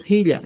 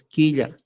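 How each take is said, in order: First: "jilla" with a throaty J at the start; inicial gutural. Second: "quilla" with a clean K at the start; inicial con K. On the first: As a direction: start "jilla" on a scraped Spanish J, not K. ("jilla" con jota inicial) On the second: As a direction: start "quilla" on a simple K, no throaty J. ("quilla" con K simple) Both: Shown as a demonstration. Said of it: "No es jilla, es quilla".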